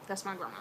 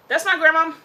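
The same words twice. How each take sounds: First: Said in the usual way. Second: Much louder, higher, declaring it; loud proud insistence. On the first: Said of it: "Grandma Billy". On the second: Real, not acted. Insisting to the audience that she is her grandma, loud. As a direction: proclaim it like a boast.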